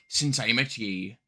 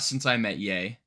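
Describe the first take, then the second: First: It is said in a put-on pirate voice. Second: It is said in his normal voice.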